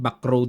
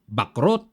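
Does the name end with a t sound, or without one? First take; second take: without; with. First: The name ends without a t sound. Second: The name ends with a t sound. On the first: This is how it is said abroad. "kung bigkasin po yan, Backrow daw eh" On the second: This is how it is said locally. "tagal kong binabanggit dyan, Bakrot"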